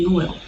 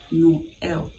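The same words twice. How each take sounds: First: The two vowels are blended into one sound. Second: The two vowels are said as separate sounds. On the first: The speaker calls it wrong. "instead of saying Noel" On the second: The speaker calls it right. "you say Noel"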